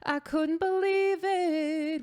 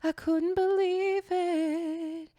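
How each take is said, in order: First: The voice is clear with no added air. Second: The voice has a little added breathiness. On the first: "without the air" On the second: "you're going to add like a little bit of air"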